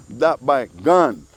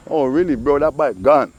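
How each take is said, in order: First: Drawn out slowly with a falling end. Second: Excited. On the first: Telling about the neighbor's bike, slow and savoring. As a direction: stretch "That bike gone" slow and final. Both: Shown as a demonstration.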